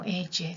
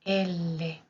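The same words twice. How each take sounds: First: "elle" said with a y-like Spanish ll, eh-ye; Spanish ll sound. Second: "L" slowly as el-le, both l's sounded; double consonant. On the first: Teacher showing how not to read it, Spanish ll demo. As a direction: say "elle" quickly as eh-ye, without l. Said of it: "que no se lea como elle". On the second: Teacher correcting the Spanish reading, slow double-L demo. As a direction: stretch the l in "L", two beats. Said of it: "que no se lea como elle, sino es L". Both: Shown as a demonstration.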